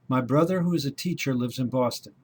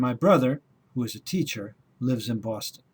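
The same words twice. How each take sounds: First: It flows on without pauses around the clause. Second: It has pauses before and after the clause.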